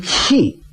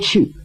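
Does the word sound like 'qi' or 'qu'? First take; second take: qi; qu. First: The word is said with the vowel 'i'. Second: The word is said with the vowel 'u'. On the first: This is how a neighbour with a local accent says it. "他说气" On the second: This is the standard way of saying it. "他不说去"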